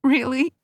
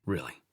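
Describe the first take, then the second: First: High, rising tearful question; Tony, teary, asking the doctor in disbelief; teary surprise. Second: Much lower, much softer steady answer; doctor calmly confirming to his patient; low calm reply. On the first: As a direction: ask it half laughing, half crying. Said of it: "made her chuckle and cry". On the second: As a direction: settle it down low and sure. Brooks answers her calmly. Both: A narrator's reading.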